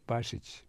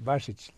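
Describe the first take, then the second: First: The name is said with Croatian pronunciation. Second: The name is said with English pronunciation. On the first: The speaker calls it right. "your name in Croatian" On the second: The speaker calls it wrong. "the anglicized"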